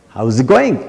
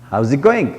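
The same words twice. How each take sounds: The two takes are said the same way.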